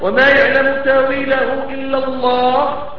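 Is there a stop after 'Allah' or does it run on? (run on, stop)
stop. The recitation stops after the word Allah. Only God knows its interpretation; a new sentence follows. "وقف هنا واو استئناف جديد"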